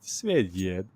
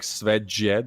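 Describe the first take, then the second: First: The j is said as a Y sound. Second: The j is said as an English J sound. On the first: The speaker calls it right. "pronounce the J as the Y" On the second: The speaker calls it wrong. "it's not like Svedjed"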